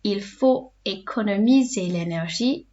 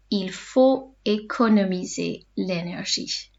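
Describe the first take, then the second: First: Said in the usual way. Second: Slow, careful dictation pace; slow teacher repeat; said slowly. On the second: Shown as a demonstration. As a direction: lay the sentence out slowly for learners. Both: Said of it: "say them slowly in between".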